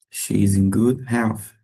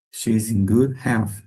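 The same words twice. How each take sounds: The two takes are said the same way.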